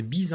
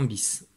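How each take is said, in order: First: "bise" ending in a z sound; voiced final z on "bise". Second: "bis" ending in an s sound; unvoiced final s on "bis"; voiceless ending. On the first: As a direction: say "bise" as beez. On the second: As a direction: say "bis" as biss. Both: Shown as a demonstration. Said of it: "pour transformer bise en bis".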